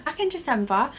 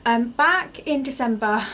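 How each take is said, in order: First: Said in the usual way. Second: Gasping between phrases; breathless after running upstairs; out of breath. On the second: Real, not acted. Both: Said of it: "sorry, I am so out of breath".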